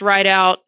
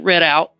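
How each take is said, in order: First: The first syllable sounds like 'ride'. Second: The first syllable sounds like 'rid'. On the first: This is how the name is properly said. "it's pronounced Ride Out" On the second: This makes the spelling clear to the listener. "I pronounce it Rid Out so they spell it correctly"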